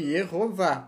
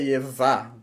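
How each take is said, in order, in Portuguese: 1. O nome é dito com a vogal 'o' no meio. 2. O nome é dito sem a vogal 'o' no meio. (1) "É para você ler Yehová" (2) "Não é para você ler Yevá"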